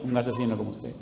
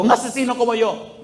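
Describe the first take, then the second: First: Low, soft, calm reply; understated calm echo; quiet retort. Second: Imitated anguished outburst; mock yell. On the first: Retold or imitated. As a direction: hand it back quietly, voice dropped. His quiet reply to the shouting. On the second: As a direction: cry out as the anguished man. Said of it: "Y él gritaba".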